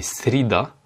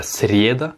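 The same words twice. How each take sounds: First: Srida with a short I in place of YE. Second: Srieda with a full YE in the first syllable, SRYE-da; wrong YE vowel. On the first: Teacher correcting the vowel, srida with an I. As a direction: reduce the first vowel of srida to I. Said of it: "j'ai mal fait l'accentuation". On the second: Teacher showing the mistake, srieda with a clear YE. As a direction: sound out srieda with an open YE. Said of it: "il se prononce comme un I". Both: Shown as a demonstration.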